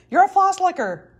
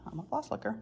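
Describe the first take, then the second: First: Higher, louder teasing accusation; hammed-up teacher calling her out; mock accusing yell. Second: Sheepish admission. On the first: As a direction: pin the label on her like a verdict. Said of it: "he yelled at me". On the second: Retold or imitated. Admitting the accusation.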